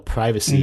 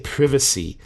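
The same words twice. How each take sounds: First: It is said with an American pronunciation. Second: It is said with a British pronunciation. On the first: "the American pronunciation of the word privacy is well privacy" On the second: "now when I read the word in my head, I always say privacy"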